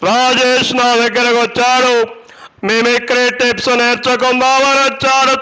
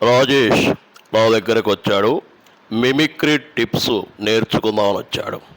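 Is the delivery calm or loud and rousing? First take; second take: loud and rousing; calm. First: Spoken loudly and rousingly, as if to a crowd. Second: Spoken in a calm, ordinary conversational manner. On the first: Said at a public rally. "ఇది బహిరంగ సభలో" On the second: Said in ordinary conversation. "ఇది normal"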